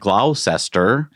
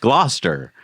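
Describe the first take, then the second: First: It is said the way it is spelled. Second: It is said with the local pronunciation. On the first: The speaker calls it wrong. "not the way it's spelled" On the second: The speaker calls it right.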